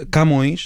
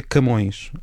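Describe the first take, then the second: First: Camões with an open a, as usually said; Camões as everyone says it, open a. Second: Camões with the first a closed and reduced; Camões by the general rule, closed first vowel. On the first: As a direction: say "Cámões" with a clear open a. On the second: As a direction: say "C'mões", the unstressed a swallowed. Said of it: "de acordo com esta regra". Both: Shown as a demonstration.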